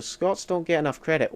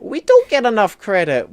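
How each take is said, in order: First: Said in the usual way. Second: Loud, high, indignant agreement; emphatic agreement. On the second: Real, not acted. Streamer agrees Scots lack credit, emphatic agreement. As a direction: throw it out louder and higher.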